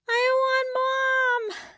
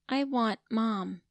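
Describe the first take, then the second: First: It is said in a whining voice. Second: It is said in a clear plain voice.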